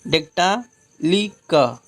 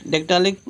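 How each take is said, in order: First: "डेक्टालिक" slowly, long "dektaa", then "li", "ka"; broken into syllables. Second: Said in the usual way. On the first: Shown as a demonstration. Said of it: "ली बोलिए फिर का बोलिए".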